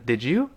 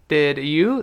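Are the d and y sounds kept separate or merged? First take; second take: merged; separate. First: The d and y merge into a j sound. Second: The d and y sounds stay separate.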